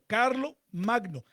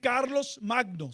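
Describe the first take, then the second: First: The first word ends without an s sound. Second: The first word ends with an s sound. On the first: The speaker calls it right. "sino Carlo Magno" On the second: The speaker calls it wrong. "No se dice Carlos Magno"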